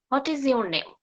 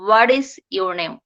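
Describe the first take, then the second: First: "hot is your name" for What is your name, full T; What is your name with h-sound and unlinked T; incorrect version. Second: "waris" for What is in What is your name; slow, low What is your name with tapped T; linked T. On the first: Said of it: "it's not correct". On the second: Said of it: "Just like this". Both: Shown as a demonstration.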